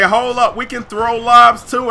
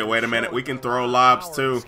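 First: A lightly higher, louder cocky voice; playful taunt from the other team; mock Clippers boast. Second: A lower, softer retelling of the taunt; grudging quiet quote of the other team; muttered mock boast. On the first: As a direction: voice the rival team bragging. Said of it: "The Clippers say". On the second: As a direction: mutter the rival's line under your breath. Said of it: "But they say".

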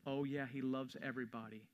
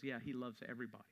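First: Said in the usual way. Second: Quick, softer, dismissive brush-off; stone-cold dismissal. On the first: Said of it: "You have to go from this world". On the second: Retold or imitated. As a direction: toss it off flatly and fast, unmoved. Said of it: "with a stone-cold face and says".

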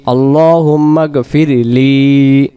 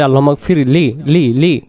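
First: গফিরলি with the final লি stretched long. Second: গফিরলি said quickly with লি clipped short. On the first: Teacher shows the long লি in গফিরলি, slowly stretched. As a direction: hold the লি in গফিরলি clearly drawn out. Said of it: "লি যখন টান দেব". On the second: Teacher shows the wrong short লি in গফিরলি. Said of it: "এই লি না, টান না দেওয়ার কারণে". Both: Shown as a demonstration.

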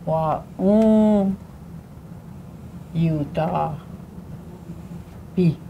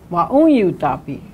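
First: "wa, un, yu, ta, pi" said apart, slow; syllable breakdown. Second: "un" lifted and stressed in "wa, un, yu, ta, pi"; stress on second syllable. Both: Shown as a demonstration. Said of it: "Second syllable has always got the emphasis".

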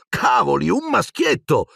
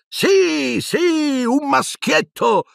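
First: High, amazed exclamation; as if he had never heard of such a thing; exclaiming. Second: High, slow, giddy repetition; dazed with happiness. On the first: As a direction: Ron exclaiming in wonder. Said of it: "Ron esclamò". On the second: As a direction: repeat it stunned with joy. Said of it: "stordito dalla felicità". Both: A narrator's reading.

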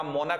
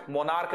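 First: मोनक said short as MO-nak, no र; the right way, मोनक with a short a and a hard k; correct pronunciation. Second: मोनार्क with a long आ and a final र्क; the wrong way, मोनार्क said as mo-NAARK; wrong pronunciation. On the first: Teacher to students giving the right version of मोनक. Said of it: "मोनक होगा". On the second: Teacher showing students the wrong version of मोनार्क. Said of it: "मोनार्क नहीं होगा". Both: Shown as a demonstration.

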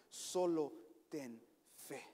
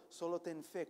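First: "Solo ten fe" drawn out very slowly, each word weighed; "Solo ten fe" said at half speed with heavy weight; slow emphasis. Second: Said in the usual way. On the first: Shown as a demonstration.

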